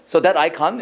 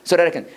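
First: British so that I can with crisp t; British accent. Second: American English, linked so that I can with tapped t; American accent. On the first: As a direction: imitate British English, words kept separate. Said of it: "물론 영국 영어는 어떻게 하시죠?". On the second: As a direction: run so that I can together the American way. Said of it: "미국 영어". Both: Shown as a demonstration.

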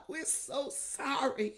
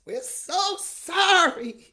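First: Said in the usual way. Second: Louder, drawn-out cry of sorry; loud slow plea. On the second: Real, not acted. Pastor crying out to God in repentance, loud and slow. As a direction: belt out sorry slowly, like a wail.

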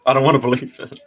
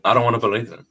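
First: Real laugh breaking into the line. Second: Said in the usual way. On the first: Real, not acted. Vlogger on turning twenty-six, laughing in disbelief. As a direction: say it through an amused laugh.

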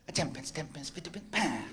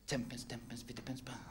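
First: Quiet muttered step count; soft counting again. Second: Soft whispered step count; hushed dance-step counting; muttered counting. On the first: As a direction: count under your breath. Mate repeats the count. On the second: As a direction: count the steps under your breath. Mate demonstrates counting dance steps. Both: Acted.

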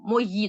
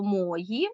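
First: «мої» stressed on the final Ї; stress on last syllable. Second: «мої» stressed on МО; stress on first syllable. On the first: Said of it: "тут уже логічний буде наголос". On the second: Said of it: "по наголосу". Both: Shown as a demonstration.

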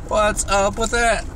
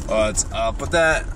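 First: Higher pitched, puzzled what's up with that; high quizzical take. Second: Low deadpan take. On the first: To himself, about the barking dog, higher puzzled ask. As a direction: ask it high, mock baffled. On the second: To himself, about the barking dog, low deadpan repeat. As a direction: lower pitched, flat-out repeat of what's up with that. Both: Shown as a demonstration.

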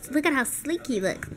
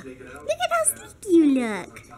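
First: Said in the usual way. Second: Put-on slow, higher sing-song baby talk to the puppy; doggy baby talk. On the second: Shown as a demonstration. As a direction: coo it slowly at the dog.

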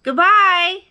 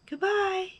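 First: High, loud farewell; big high-pitched call. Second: Small faraway high voice; echo. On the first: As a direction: holler goodbye across the mountains. Bear calls across to the moon. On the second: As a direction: answer like a distant echo. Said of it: "his own voice echoed". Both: A narrator's reading.

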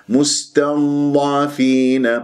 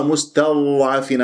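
First: Slow مستضعفين with heavy, continuous ض; correct flowing dad. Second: Quicker مستضعفين with a misformed ض; wrong dad. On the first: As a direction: sustain the ض in مستضعفين without a bounce, long ee. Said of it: "إذن". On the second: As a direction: recite مستضعفين with a faulty ض, as others mistakenly do. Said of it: "هذا خطأ". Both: Shown as a demonstration.

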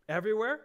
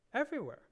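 First: Everywhere asked back with a rising, louder lift; surprised question. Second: Said in the usual way. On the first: Shown as a demonstration. Preacher questioning the verse for the men, surprised. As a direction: echo the word as a startled question.

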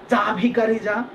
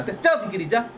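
First: যা ভিখারি যা higher, with every vowel full; যা ভিখারি যা pronounced too properly for a brush-off; careful full pronunciation. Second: যা ভিখারি যা run together, middle reduced to ভিকিরি; hurried colloquial brush-off, ভিখারি slurred to ভিকিরি; quick easy pronunciation. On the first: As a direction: give ভিখারি its full open খা, over-correct. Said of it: "না, এরকম কিন্তু বলবেন না". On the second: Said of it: "উচ্চারণের তার জন্য সহজ হয়ে যায়". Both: Shown as a demonstration.

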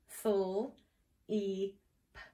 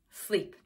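First: "Full" as a drawn-out s-l blend, then "E", then "P"; sounded out. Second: Said in the usual way. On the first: Shown as a demonstration. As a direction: softly sound out "Full, E, P" with gaps. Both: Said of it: "get the blend?".

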